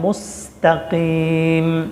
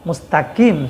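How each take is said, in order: First: The k sound is made deep in the throat. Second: The k sound is a plain, front k. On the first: The speaker calls it right. "বড় কফ" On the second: The speaker calls it wrong. "ছোট কাফ বললে নামাজ নষ্ট হয়ে যাবে"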